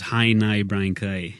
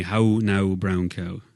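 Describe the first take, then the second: First: "Hi, nigh" with I vowels, northern Irish; northern Irish accent. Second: Rural Irish with rounded "How now" vowels; a country Irish "brown cow"; Irish country accent. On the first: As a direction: slide the vowels to I, Ulster style. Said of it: "the vowel changes to an I". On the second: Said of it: "every vowel would have an ooh at the end". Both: Shown as a demonstration.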